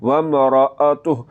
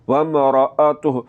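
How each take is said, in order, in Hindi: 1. 'ra' ध्वनि के बाद ग्लोटल कैच आता है। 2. 'ra' ध्वनि के बाद ग्लोटल कैच आता है।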